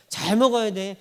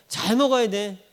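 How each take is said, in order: Both takes have the same delivery.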